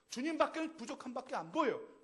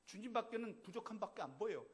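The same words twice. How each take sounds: First: Louder, higher repeat of the line; 주님밖에는 stressed loud and high; emphatic. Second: Said in the usual way. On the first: Shown as a demonstration. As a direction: drive the point home on 주님밖에는. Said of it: "repeated louder". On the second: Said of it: "repeated with force".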